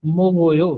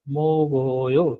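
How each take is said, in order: First: Said in the usual way. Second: मोगोयो drawn out slowly, syllable by syllable; slow teaching demo. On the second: Shown as a demonstration. Teacher slowly models मोगोयो for the class, drawn out. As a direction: stretch मोगोयो out slowly so students catch each syllable. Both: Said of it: "दूसरी example इसने क्या दी?".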